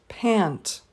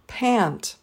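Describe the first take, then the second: No difference in how they are said.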